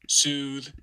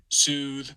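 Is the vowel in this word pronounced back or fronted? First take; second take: fronted; fronted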